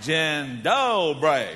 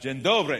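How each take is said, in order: First: It is said with a Southern US accent. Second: It is said without a Southern accent.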